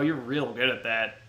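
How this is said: It is said with a sarcastic edge. The compliment is meant as a put-down. "there's like a little edge of sarcasm to it"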